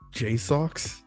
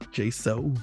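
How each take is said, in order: First: The name ends with a 'ks' sound. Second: The name ends with a vowel sound. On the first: "How do you pronounce that company name?" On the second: "the second one might be right"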